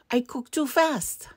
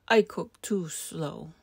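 First: High, brisk rabbit excuse; lively, pitched-up rabbit line; hurried rabbit. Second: Slow, drawn-out excuse; unhurried, lingering tortoise line. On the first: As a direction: pipe it up quickly. Rabbit character, high and quick. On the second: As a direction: stretch the words like a tortoise. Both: A narrator's reading.

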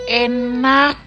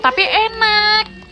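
First: Said in the usual way. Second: Enak drawn out long, pitched high; stress on enak. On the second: Real, not acted. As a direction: stretch out enak slowly and high. Savoring verdict on the taste.

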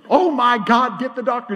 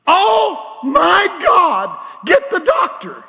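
First: Louder replay of the nurse's cry but less high; preacher repeating the nurse's alarmed cry, less intense; milder nurse echo. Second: High, loud alarmed cry of an army nurse; army nurse shouting in alarm as she pulls back the sheet. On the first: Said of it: "beside myself". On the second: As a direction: shriek for the doctor like it's an emergency. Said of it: "here's what came out of her mouth". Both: Retold or imitated.

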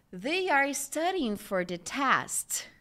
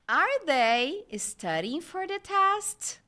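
First: Slow "They are studying for the test", falling on "test"; statement intonation. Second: Slow, higher "Are they studying for the test?", lifted to the end; question intonation. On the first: Teacher lets students just feel the intonation, slow falling statement. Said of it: "essa entonação é muito importante". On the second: Teacher shows how English questions differ, slow and high-ended. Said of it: "Vocês percebem a entonação?". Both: Shown as a demonstration.

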